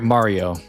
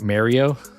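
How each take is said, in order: First: It uses the speaker's usual general pronunciation. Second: It uses an East Coast style pronunciation.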